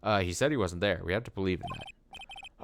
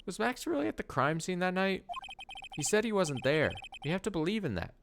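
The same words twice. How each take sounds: First: Phoenix voice. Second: Higher-pitched voice for the wrong character. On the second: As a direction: read it in the higher voice first. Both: Acted. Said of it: "Oh, that's Phoenix".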